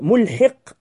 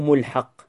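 First: The vowel after the h sound is i. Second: The vowel after the h sound is a. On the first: The punishment catches up with the disbelievers. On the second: God makes the punishment reach the disbelievers.

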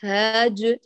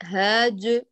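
Both takes have the same delivery.

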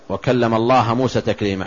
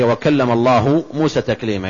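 First: Allah ends with an a vowel. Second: Allah ends with a u vowel. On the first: God is the one spoken to. The speaker calls it wrong. "بالنصب" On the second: God is the one who speaks. The speaker calls it right. "الفاعل هو الله"

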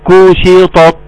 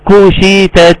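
First: Both t-like sounds are emphatic. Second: Both t-like sounds are plain. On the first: "دي اتنين طاء" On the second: "ادا اتنين تاء"

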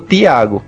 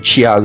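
First: The t is a plain, hard t sound. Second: The t is softened into a ch sound. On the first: This is how the northeast region says it. "Lá eles falam Tiago" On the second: This is how the southeast region says it. "Esse chiado, assim, o Tiago"

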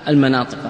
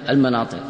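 The two takes are said the same way.

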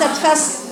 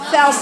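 First: The s sound is light, like a plain s. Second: The s sound is heavy, with a raised tongue. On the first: The speaker calls it wrong. "ليست فس، فس دي بسين" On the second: The speaker calls it right. "فيها استعلاء واطباق، يبقى صوتها من فوق"

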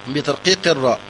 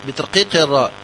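No difference in how they are said.

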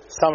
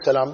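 First: The middle sound of the word is swallowed. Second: The word is said fully and clearly. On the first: The greeting is disguised so its meaning is unclear. "بس يأكلها" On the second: It is a proper greeting of peace. "ولا يقول السلام"

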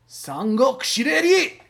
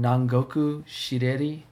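First: The title is said with loud, excited energy. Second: The title is said in a flat, plain way. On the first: The speaker calls it right. "Do it again" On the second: The speaker calls it wrong. "I didn't hear both exclamation points on that"

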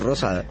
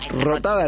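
First: The middle consonant is an s sound. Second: The middle consonant is a t sound. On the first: The speaker calls it right. "Rotada no, Rosada" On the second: The speaker calls it wrong. "Rotada no"

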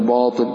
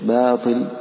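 First: The b sound is heavy and thick. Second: The b sound is light and thin. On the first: The speaker calls it wrong. "ولا تقول باطل" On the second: The speaker calls it right. "ترققها"

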